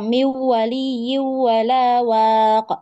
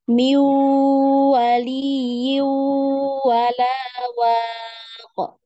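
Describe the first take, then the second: First: The nasal sound is cut short, not held. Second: The nasal sound is held and lengthened. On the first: The speaker calls it wrong. "Jadi tidak dibaca miwali wala waq" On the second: The speaker calls it right. "tapi ditahan ya, dipanjangkan tempo gunnahnya"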